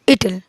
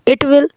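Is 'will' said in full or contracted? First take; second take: contracted; full. First: Will is reduced to an l sound. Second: Will is said as a separate full word.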